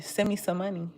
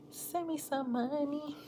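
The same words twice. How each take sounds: First: Said in the usual way. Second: High, soft, drawn-out wheedle; playful plea. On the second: Pretend. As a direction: plead softly up high, stretching it out. Playful repeat of money request.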